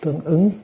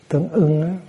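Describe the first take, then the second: First: The second syllable has a rising tone. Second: The second syllable has a level tone. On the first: The speaker calls it right. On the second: The speaker calls it wrong.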